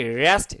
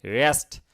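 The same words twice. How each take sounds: First: রেস্ট with a drawn-out vowel, shown as wrong; রেস্ট said wrong on purpose. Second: রেস্ট said short and clean; the correct way to say রেস্ট; right way. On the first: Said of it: "রেস্ট এরকম না". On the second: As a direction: correct রেস্ট after the wrong one. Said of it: "রে, রে, রে এরকম না". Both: Shown as a demonstration.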